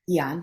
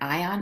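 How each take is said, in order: First: The word begins with an 'ee' sound. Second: The word begins with an 'eye' sound. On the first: The speaker calls it right. "Eon, thank you" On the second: The speaker calls it wrong. "Am I saying that right?"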